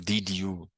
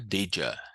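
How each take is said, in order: First: The second word is a full 'you'. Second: The second word is reduced to 'ya'. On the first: The speaker calls it wrong. "Não vamos falar did you" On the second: The speaker calls it right. "vamos falar did ya"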